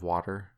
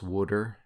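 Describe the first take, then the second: First: The first syllable does not sound like 'wood'. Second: The first syllable sounds like 'wood'. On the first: This is the usual way elsewhere. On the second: This is how people in Pennsylvania say it.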